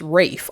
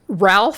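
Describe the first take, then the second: First: The name is said with no L sound. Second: The name is said with an L sound. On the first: The speaker calls it right. "it's pronounced Rafe" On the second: The speaker calls it wrong. "as we look at it, it's not pronounced"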